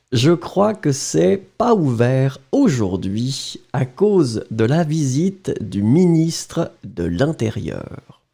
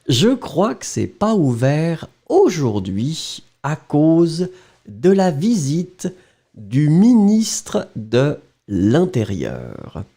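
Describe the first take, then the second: First: Natural reading pace; plain French dictation reading. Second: Slow, chunked, with pauses; slow dictation pace with pauses. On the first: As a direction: read the sentence through once. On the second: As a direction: dictate the last part very slowly. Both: Shown as a demonstration. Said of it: "well, don't look at it".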